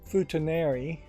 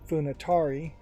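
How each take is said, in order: First: The syllables run fu, ta, na, ri. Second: The syllables run fu, na, ta, ri. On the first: The speaker calls it right. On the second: The speaker calls it wrong.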